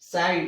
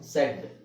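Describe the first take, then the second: First: The vowel sounds like the one in cat. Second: The vowel sounds like the one in bed. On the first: The speaker calls it wrong. "Phonics ಪ್ರಕಾರ ನಾವು ಓದೋದಾದ್ರೆ" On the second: The speaker calls it right. "Actually ಇದರ ಉಚ್ಚಾರಣೆ"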